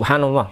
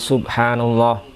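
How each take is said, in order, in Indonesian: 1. Frasa ini diucapkan sangat cepat. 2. Frasa ini diucapkan dengan pelan, tidak terburu-buru.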